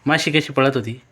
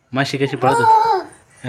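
First: Said in the usual way. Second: Drawn out through laughter; slow, laughing. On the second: Real, not acted. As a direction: ask it slowly while laughing. Father repeats, amused.

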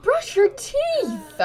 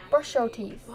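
First: Loud, very high, drawn-out command; shouted order. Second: Said in the usual way. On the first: Pretend. Telling someone with disgusting teeth to brush, shouted order. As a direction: yell it slowly at a high pitch.

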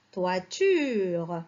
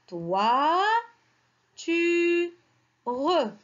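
First: Said in the usual way. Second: "toi, tu, re" slowly, a pause after each syllable; syllable-by-syllable reading. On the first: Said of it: "le deuxième mot". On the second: Shown as a demonstration. Teacher builds the second word for children, "toi, tu, re" spaced apart. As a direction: sound out "toi, tu, re" as separate drawn-out pieces. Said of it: "On a toi, on a re".

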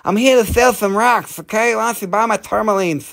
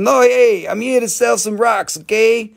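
First: High voice with a heavy lisp; Mike Tyson. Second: High-pitched boxer impression; Mike Tyson. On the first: Acted. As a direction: lisp every S as TH, pitched up. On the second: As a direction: pitch it up, mostly without the lisp. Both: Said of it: "Do a Mike Tyson".

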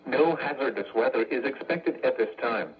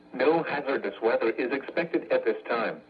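The two takes are said the same way.

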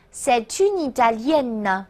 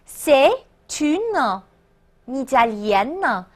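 First: C'est une Italienne run together, t and n linked; slow, connected C'est une Italienne for learners to repeat; linked liaison. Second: C'est, une, Italienne in separate pieces with pauses; slow, spaced-out C'est / une / Italienne; broken-down liaison demo. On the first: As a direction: join C'est une Italienne as "say-tune-ee-ta-lyen". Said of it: "务必连读哦". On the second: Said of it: "注意连读连诵啊". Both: Shown as a demonstration.

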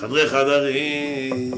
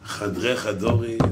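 First: "חדרי חדרים" chanted slowly, with an a in "חדרים"; drawn-out modern vowels. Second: "חדרי חדרים" slowly, with an o in "חדרים". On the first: Comic preacher intoning "חדרי חדרים", very slow with an a vowel. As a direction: stretch "חדרים" very long, sounding it xa-da-rim. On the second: Comic preacher intoning "חדרי חדרים", slow with an o vowel. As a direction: stretch "חדרים" slowly, sounding it xa-do-rim. Drawn-out chant, first vowel version. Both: Pretend.

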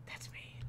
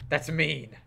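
First: Whispering it back; breathy whispered repeat. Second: Said in the usual way. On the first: Shown as a demonstration.

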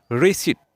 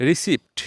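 First: রিসিট with a silent p, ri-seet; রিসিট ending in a plain t; correct pronunciation. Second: রিসিপ্ট with the p sounded; রিসিপ্ট ending in a hard pt; wrong pronunciation. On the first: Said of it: "বলবো রিসিট". (সঠিক উচ্চারণে রিসিট, প নীরব) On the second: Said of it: "এটা ভুল উচ্চারণ". (ভুল উচ্চারণে রিসিপ্ট, প উচ্চারিত) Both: Shown as a demonstration.

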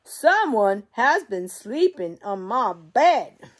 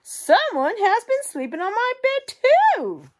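First: Slow, louder booming bear voice; Papa Bear. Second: Very high, loud mother bear squeal; Mama Bear. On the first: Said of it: "And Papa Bear goes". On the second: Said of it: "Mama Bear goes to her medium-sized bed and says". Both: Acted.

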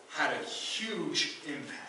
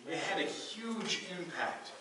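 First: Slow, stress on "had" in "had a huge impact"; emphasis. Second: Higher, slow, stress on "had" in "It had a huge impact"; emphatic repeat. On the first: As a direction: lean on "had" slowly. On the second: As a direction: repeat it, pressing "had" harder. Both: Real, not acted.

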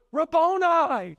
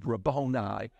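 First: High, drawn-out cry of recognition; acted excited call to a teacher; acted exclamation. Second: Said in the usual way. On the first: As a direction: cry RABBONI out high and loud-ish, stretched. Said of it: "she goes".

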